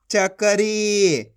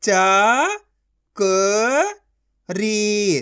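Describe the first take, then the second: First: Said in the usual way. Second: Slow, each syllable of च-क-री pulled apart; teacher sounding out a word. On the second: Shown as a demonstration. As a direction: sound out चकरी as च, क, री with gaps. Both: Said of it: "एक एक अक्षर का उच्चारण करके".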